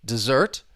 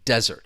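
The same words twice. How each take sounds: First: The stress is on the second syllable. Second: The stress is on the first syllable. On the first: To leave someone or something. "The verb, the stress is on the second syllable" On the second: An area covered with rocks and sand. "the noun stresses on the first syllable"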